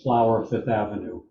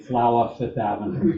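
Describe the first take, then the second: First: It is said in a plain standard accent. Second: It is said in a New York accent.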